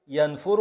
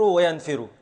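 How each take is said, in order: First: ينفر said "yanfuru", u after the f; damma on f. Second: وينفر said "wa-yanfiru", i after the f; kasra on f. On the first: Teacher gives both present forms, ينفر as yan-fu-ru. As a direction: put a short u after f in ينفر. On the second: Teacher gives both present forms, وينفر as wa-yan-fi-ru. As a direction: put a short i after f in وينفر. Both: Shown as a demonstration. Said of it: "بكسر العين وبضمها".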